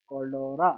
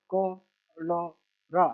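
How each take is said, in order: First: Said in the usual way. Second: Very slow, each syllable held apart. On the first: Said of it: "इसको बस मिला के पढ़ना है". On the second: Shown as a demonstration. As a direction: sound it out piece by piece for a learner. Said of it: "छोटा सा letter पढ़ लेना".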